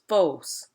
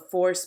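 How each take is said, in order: First: The R after the vowel is dropped. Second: The R after the vowel is pronounced.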